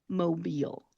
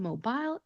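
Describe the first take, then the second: First: The word ends with an 'eel' sound. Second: The word ends with an 'aisle' sound. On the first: The speaker calls it right. "that soft eel sound that I'm making at the end of the word" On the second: The speaker calls it wrong. "not called Mobile ... It is not aisle"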